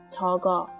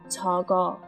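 Both takes have the same delivery.

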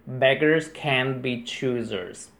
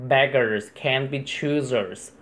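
Both takes have the same delivery.

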